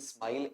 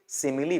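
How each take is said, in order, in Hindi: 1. शब्द एक अक्षर में दबाकर बोला जाता है। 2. शब्द तीन अक्षरों में बोला जाता है। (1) "ऐसा नहीं बोलेंगे" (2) "सिमिली बोलेंगे"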